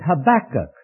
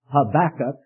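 First: The stress is on the second syllable. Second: The stress is on the last syllable. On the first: "maybe you pronounce it Habakkuk" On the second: "the emphasis is on the last syllable, not the second. It doesn't rhyme with tobacco"

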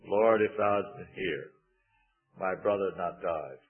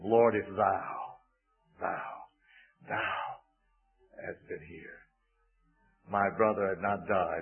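First: The stress falls on the word if. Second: The stress falls on the word thou.

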